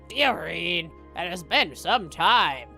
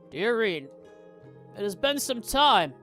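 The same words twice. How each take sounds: First: It is read in an ornery old man voice. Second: It is read without an old man voice.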